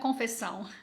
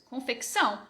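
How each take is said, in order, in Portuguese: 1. Há apenas um som de s, sem k. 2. Um som de k vem antes do som de s. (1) "não é confessão" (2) "A gente faz isso. Confecção"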